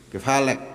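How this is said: Said in short, colloquial Saudi dialect form. This is everyday colloquial speech. "Bahasa amia Saudi"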